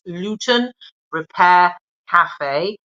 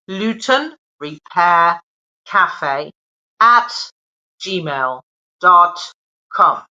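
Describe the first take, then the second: First: The address is said quickly. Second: The address is said slowly.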